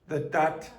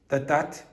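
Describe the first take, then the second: Both takes have the same delivery.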